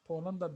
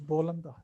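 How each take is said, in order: First: The word begins with a p sound. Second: The word begins with a b sound. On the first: "change the P to B" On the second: "You say Bolanda"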